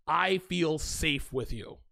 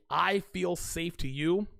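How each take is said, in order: First: Tender whisper-soft. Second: Imitating her tender line. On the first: Shown as a demonstration. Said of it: "just saying it to myself". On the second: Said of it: "When a woman says this to me".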